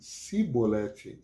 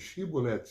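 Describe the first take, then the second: First: The word begins with a plain s sound. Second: The word begins with an sh sound. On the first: The speaker is from the defeated tribe. The speaker calls it wrong. "se ele dissesse Sibolete, em vez de Shibolete" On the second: The speaker is not from the defeated tribe. The speaker calls it right. "em vez de Shibolete"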